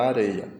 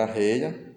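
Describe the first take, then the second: First: Areia with one light tapped r; single tapped R. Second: Arreia with rr sounded as h; strong double R. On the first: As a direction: flick the r once in areia. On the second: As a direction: aspirate the rr in arreia. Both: Shown as a demonstration. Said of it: "existe a palavra arreia".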